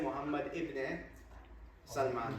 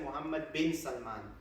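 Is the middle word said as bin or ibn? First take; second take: ibn; bin. First: The middle word is said as ibn. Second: The middle word is said as bin. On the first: The speaker calls it wrong. "you wouldn't say Muhammad ibn Salman" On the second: The speaker calls it right. "when you pronounce it Muhammad bin Salman"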